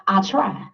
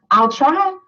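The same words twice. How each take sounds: First: Said in the usual way. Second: "I'll try" higher, with a lifting whiny rise on "try"; mocking the half-hearted promise. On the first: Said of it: "we can't say". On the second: Shown as a demonstration. Speaker mocking members who only promise to try. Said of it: "That is not in our dictionary".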